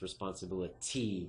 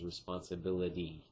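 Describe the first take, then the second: First: The T is said as a hard T. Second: The T is said as a soft D. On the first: The speaker calls it wrong. "with a hard T sound" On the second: The speaker calls it right. "has a softer kind of like D sound"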